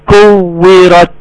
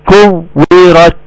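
No difference in how they are said.

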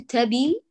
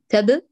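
First: A short vowel is added after the b. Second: The b is closed with no vowel after it. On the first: The speaker calls it wrong. "لا نقول تبي" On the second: The speaker calls it right. "أيوة تب، أحسنتي، ساكن"

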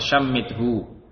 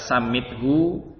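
First: The word begins with an sh sound. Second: The word begins with an s sound. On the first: "juga bisa dengan shin" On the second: "bisa dengan sin"

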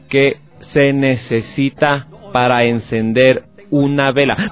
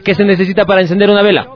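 First: The question is spoken at a slow pace. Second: The question is spoken at a fast pace. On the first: "Voy a repetir de nuevo, pero más lento" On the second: "Voy a repetirle, pero más rápido"

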